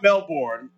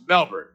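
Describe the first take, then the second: First: Melbourne with the R, said as mel-born; Melbourne said the American way, with a full born at the end; wrong pronunciation. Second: Melbourne as mel-bn, no R; right pronunciation. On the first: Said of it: "so it's not Melbourne". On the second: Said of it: "so it's not Melbourne, it's Melbourne". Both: Shown as a demonstration.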